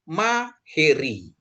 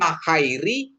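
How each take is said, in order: First: The middle syllable is sounded he. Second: The middle syllable is sounded hai. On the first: The speaker calls it right. "tapi maheri" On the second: The speaker calls it wrong. "Bukan mahairi"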